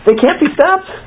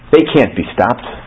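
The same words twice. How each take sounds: First: It is said as an incredulous question. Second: It is said as a harsh, flat statement. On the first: Of course they can be stopped. "What? ... Of course they can" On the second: There is no way to stop them. "That's a harsh, you? There's no way you can help me"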